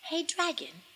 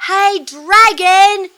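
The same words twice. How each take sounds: First: High, hushed little call; tiny, careful, quiet voice; very soft whisper. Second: High, very loud, drawn-out yell; slow bellowed call, every word stretched; full-out shout. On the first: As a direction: call softly so as barely to disturb a sleeper. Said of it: "Elizabeth whispered very softly". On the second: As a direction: holler as loud as you can into a sleeper's ear. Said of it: "she shouted as loud as she could". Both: A narrator's reading.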